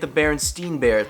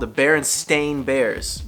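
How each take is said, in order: First: The last syllable of the name has another vowel. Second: The last syllable of the name has an 'ay' vowel. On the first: This is how people have always assumed it is spelled. The speaker calls it wrong. "I grew up calling it the Berenstein Bears" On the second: This is how the name is actually spelled. The speaker calls it right. "if I'm saying that and it sounds funny, that's because it, it should sound funny"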